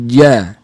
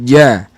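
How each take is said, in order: First: The j is voiced with the breath held back. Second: The j is voiced with the breath held back.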